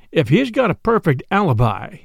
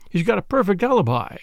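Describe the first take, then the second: First: Mildly challenging retort, rising at the end. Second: Said in the usual way. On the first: A narrator's reading. Brother challenges his sister's theory, retorting. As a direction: throw her claim back at her. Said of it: "I retorted".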